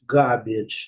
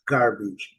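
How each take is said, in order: First: It is said with a British accent. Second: It is said with an American accent. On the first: "Se a gente estiver em Londres" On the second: "E se estivermos nos Estados Unidos ou Canadá"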